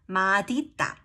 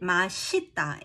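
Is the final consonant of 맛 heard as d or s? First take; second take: d; s. First: The final consonant of the first syllable sounds like d. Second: The final consonant carries over as an s sound. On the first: This is the older way of saying it. "some old people still say 맛있다" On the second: This is how people say it today. "why is it 맛있다"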